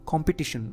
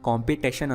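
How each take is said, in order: First: The third syllable has a short 'i' vowel. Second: The third syllable has a long 'ay' vowel. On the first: The speaker calls it right. "ಕಾಂಪಿಟಿಷನ್ ಅನ್ಬೇಕು" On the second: The speaker calls it wrong. "ಕಾಂಪಿಟೇಷನ್ ಅನ್ಬಾರ್ದು"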